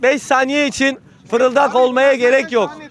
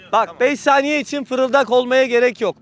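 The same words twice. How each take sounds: First: Slow and a bit louder for the crowd; to someone hard of hearing. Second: Said in the usual way. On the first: Real, not acted. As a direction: spell it out loud and slow so the back hears. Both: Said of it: "Biraz yüksek sesle konuşun".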